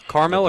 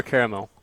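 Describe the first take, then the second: First: CARAMEL said as "KAR-mel"; CARAMEL in two syllables, like Carmel. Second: CARAMEL said as "KAIR-uh-mel"; CARAMEL in three full syllables. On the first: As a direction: drop the middle vowel of CARAMEL. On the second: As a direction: sound the middle vowel of CARAMEL. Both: Shown as a demonstration. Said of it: "I kinda interchange it".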